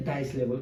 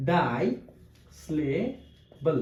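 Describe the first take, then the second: First: Said in the usual way. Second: ডাইস্লেবল very slow, split ডাই, স্লে, বল; spaced-out, lower ডাইস্লেবল, part by part; syllable by syllable. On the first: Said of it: "কি স্লেবল?". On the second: Shown as a demonstration. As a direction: break ডাইস্লেবল with long pauses. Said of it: "ভাগ ভাগ করে উচ্চারণ".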